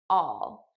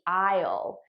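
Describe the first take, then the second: First: It is unstressed and reduced, sounding like 'all'. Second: It is stressed with a full 'eye' vowel. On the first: "I'm actually saying all, which is the unstressed pronunciation" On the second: "The stressed pronunciation would be I'll"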